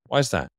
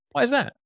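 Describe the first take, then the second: First: "Why is that?" dropping down on "that"; challenging tone, "that" falls at the end; skeptical falling question. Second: Curious tone, "that?" lifted high; curious rising question. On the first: Salesman demonstrating a skeptical question, pitch going down. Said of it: "sound more challenging or skeptical". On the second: Salesman demonstrating a curious question tone, rising at the end. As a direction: pitch sweeps way up at the end of "Why is that?". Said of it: "you go up at the end of a question". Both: Shown as a demonstration.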